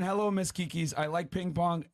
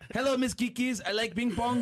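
First: It is read in his normal speaking voice. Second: It is read in a put-on character voice.

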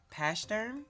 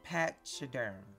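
First: The y vowel sound is left out. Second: The y vowel sound is pronounced.

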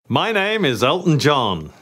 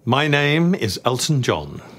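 First: It is said in a flamboyant, showy way. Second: It is said in a restrained, toned-down way.

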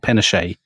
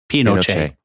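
First: The name is pronounced with an English sound. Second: The name is pronounced with a Chilean Spanish sound. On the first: "we'll obviously slip into calling him General Pinochet" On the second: "what he actually says is Pinochet"

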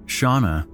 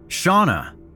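First: The name is called at normal loudness. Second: The name is shouted loudly.

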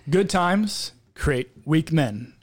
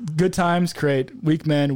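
First: It is spoken slowly with careful enunciation. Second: It is spoken at a quicker, ordinary pace.

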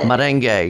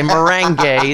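First: The word is said in a standard pronunciation. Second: The word is said in a Kentucky pronunciation. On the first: The speaker calls it right. "I have to pronounce that right" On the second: The speaker calls it wrong. "That's the Kentucky pronunciation"

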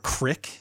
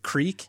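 First: The vowel is short, like in 'kick'. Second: The vowel is long, like in 'seek'. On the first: The speaker calls it wrong. "or crick" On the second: The speaker calls it right. "instead of creek"

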